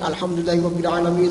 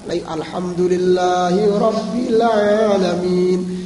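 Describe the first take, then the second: First: It is recited quickly, running into the next words. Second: It is recited slowly and clearly, word by word. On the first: The speaker calls it wrong. "dibaca secara cepat" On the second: The speaker calls it right. "Satu kata dan jelas"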